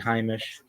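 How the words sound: It is said the Polish Yiddish way.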